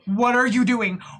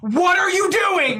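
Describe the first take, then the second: First: It is said louder, more aggressively. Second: It is said loudly and aggressively, yelling.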